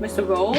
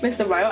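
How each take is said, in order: First: The name is said to rhyme with 'roll'. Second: The name is said to rhyme with 'file'. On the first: "I was pronouncing it roll" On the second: "now I start calling him Ryle"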